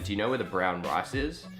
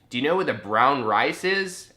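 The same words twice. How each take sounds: First: It is said in the speaker's own accent. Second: It is said imitating the local accent. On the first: The listener does not understand it. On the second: The listener understands it.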